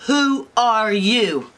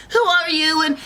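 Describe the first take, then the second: First: Slow, drawn-out echo, raised pitch; indignant bears. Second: Put-on high, loud startled girl; alarmed Goldilocks. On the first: Acted. Bears repeat the intruder's question, slow and indignant. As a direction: stretch the question out incredulously. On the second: Girl confronting three strange bears, high alarm. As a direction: demand it in a high panicky voice. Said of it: "And Goldilocks is like".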